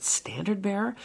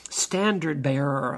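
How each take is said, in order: First: "Standard bearer?" higher, with a questioning rise; incredulous question. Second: Said in the usual way. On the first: Retold or imitated. Minister questions the label people gave him, incredulous rise on "Standard bearer". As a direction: echo "Standard bearer" back as a puzzled question.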